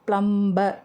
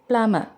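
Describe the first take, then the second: First: The b sound is pronounced in the middle. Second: The b sound is left out entirely. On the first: The speaker calls it wrong. "பியை உச்சரிக்காமல்" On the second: The speaker calls it right. "தான் சொல்லணும்"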